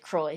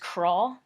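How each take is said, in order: First: The name is said like 'croy', ending in a y-glide. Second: The name is said like 'craw', with no y-glide. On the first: The speaker calls it right. "English-speaking people usually pronounce it Croy" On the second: The speaker calls it wrong. "the authentic French way to pronounce it is craw"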